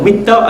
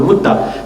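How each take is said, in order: First: The vowel after the m is i. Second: The vowel after the m is u. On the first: "boleh dibaca dengan mitta ataupun mutta" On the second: "boleh dibaca dengan mitta ataupun mutta"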